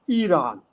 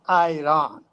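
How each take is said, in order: First: It is said in the way Tajiks avoid. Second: It is said in the Tajik way. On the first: The speaker calls it wrong. "They don't pronounce it as Iran" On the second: The speaker calls it right. "they pronounce it as Iran"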